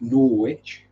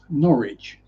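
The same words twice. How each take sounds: First: It is said with a w sound, Nor-wich. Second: It is said as two syllables, Norridge. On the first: This is how Americans say it. "Americans pronounce it Norwich" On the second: This is how non-locals say it. "it's pronounced Norwich, pronounced N O R R I D G E"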